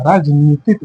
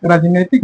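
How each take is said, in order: First: राजनीतिक said raaj-nee-tik with a long ee; राजनीतिक, long ee in the middle; correct form. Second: राजनैतिक said raaj-nai-tik with ai; राजनैतिक, ai in the middle syllable; wrong form shown. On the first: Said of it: "राजनीतिक होता है". (राजनीतिक लंबी 'ई' के साथ) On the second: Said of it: "राजनैतिक नहीं होता". (राजनैतिक 'ऐ' के साथ) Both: Shown as a demonstration.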